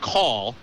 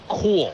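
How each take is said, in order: First: It is said in a standard American accent. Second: It is said in a Bronx accent. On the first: "we all know is call" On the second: "He said cool"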